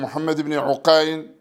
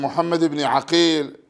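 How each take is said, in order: First: "عقيل" said as ʕUqayl, with a short u; damma on the ayn. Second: Teacher telling two names apart, "عقيل" as ʕAqīl with an a; fatha on the ayn. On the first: Teacher distinguishing look-alike narrator names, damma in "عقيل", ʕuqayl. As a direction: say "عقيل" as ʕu-QAYL, u then ay. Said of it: "وبضمها العين". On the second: Teacher distinguishing look-alike narrator names, fatha in "عقيل", ʕaqīl. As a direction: say "عقيل" as ʕa-QEEL, short a then long ee. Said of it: "فهو بفتح العين". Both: Shown as a demonstration.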